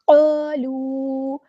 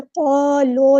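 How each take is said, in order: First: قالوا with rounded lips, very slow; correct recitation. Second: قالو with an unrounded و; wrong recitation. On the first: Teacher models قالوا very slowly with rounded lips. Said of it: "ہونٹوں کو round کر کے". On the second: Teacher shows the mistaken قالو, drawn out. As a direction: say قالو flat, lips not rounded. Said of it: "قالو نہیں کرنا". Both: Shown as a demonstration.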